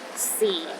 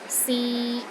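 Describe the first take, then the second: First: The pitch is at its very lowest. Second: The pitch stays level in the middle. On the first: It means time. "the lowest tone" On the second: It means to try. "a mid-tone"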